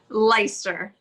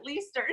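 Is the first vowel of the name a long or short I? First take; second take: long; short. First: The first vowel is a long I sound. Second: The first vowel is a short I sound. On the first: "it's a long I" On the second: "they've pronounced it"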